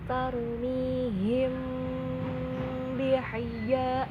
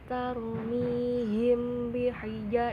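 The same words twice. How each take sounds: First: The m before b is held and nasalized. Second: The m before b is clipped short. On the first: The speaker calls it right. "ditahan dulu, didengungkan dulu" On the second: The speaker calls it wrong. "bukan tarmihim bihija, no"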